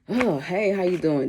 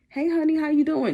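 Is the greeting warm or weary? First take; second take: weary; warm. First: The greeting sounds tired and uninterested. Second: The greeting sounds warm and inviting.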